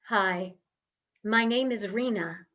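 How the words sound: It is spoken on a full, supported breath. The speaker calls it right. "this is my voice on breath"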